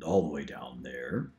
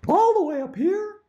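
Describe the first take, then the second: First: "all the way down there" dropped much lower and softer. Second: "all the way up here" squeaked way higher. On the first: Demo of range: "all the way down there" down low. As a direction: sink to the bottom on "all the way down there". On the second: Demo of range: "all the way up here" up high. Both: Shown as a demonstration. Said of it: "do a few more directions of the voices".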